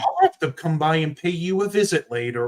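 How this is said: The voice sounds friendly and pleasant. "really pleasant"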